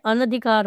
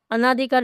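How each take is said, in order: First: अनधिकार said with a short "a" after the n, "ana-dhikaar"; correct pronunciation. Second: अनाधिकार said with a long "aa" after the n, "anaa-dhikaar"; wrong pronunciation. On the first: Teacher gives students the correct form, with the short a after n. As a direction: keep the second vowel of अनधिकार short. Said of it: "अनधिकार होता है". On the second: Teacher shows students the common mistake, with the long aa after n. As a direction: stretch the second vowel of अनाधिकार. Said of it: "अनाधिकार शब्द नहीं होता है". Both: Shown as a demonstration.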